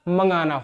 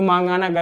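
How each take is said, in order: First: The first vowel is short, as in mang. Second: The first vowel is long, as in maang. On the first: The speaker calls it right. "इसका उच्चारण हमेशा मंगाना होता है" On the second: The speaker calls it wrong. "मांगाना गलत हो जाएगा"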